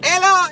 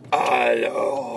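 First: It sounds like a put-on Asian accent. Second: It sounds like a slow, old man.

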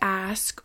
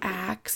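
First: The word ends in an S then K sound. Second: The word ends in a K then S sound. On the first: The speaker calls it right. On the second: The speaker calls it wrong.

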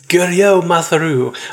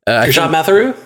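First: The first name ends silently, like Merlot. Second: The first name ends with a pronounced T. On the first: "I want to equate it to Merlot" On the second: "Yes. Yeah, that's it"

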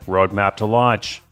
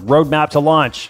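First: It is said in a weighty, dramatic tone. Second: It is said in a light, ordinary tone.

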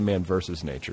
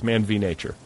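First: The middle word is the full word versus. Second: The middle word is the single letter v. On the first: The speaker calls it wrong. "You don't say Man versus Nature" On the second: The speaker calls it right. "It's Man v. Nature"

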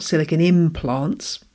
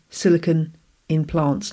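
First: The words run together like 'silicone implants'. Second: The words 'in' and 'plants' are clearly separated. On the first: Silicone implants. The speaker calls it wrong. "not silicon in plants. That's a very different kind of podcast" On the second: Silicon inside plants. The speaker calls it right. "You have to say that carefully"

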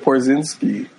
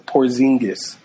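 First: The name ends with a 'ski' sound. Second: The name ends with a 'gis' sound. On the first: The speaker calls it wrong. "did I say it wrong?" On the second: The speaker calls it right. "so Porzingis"

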